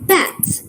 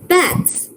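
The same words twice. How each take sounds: Both takes have the same delivery.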